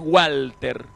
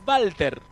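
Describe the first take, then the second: First: The name begins with a W sound. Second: The name begins with a V sound. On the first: "Nosotros decimos a lo inglés Walter" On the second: "en realidad el origen de Walter, que es alemán"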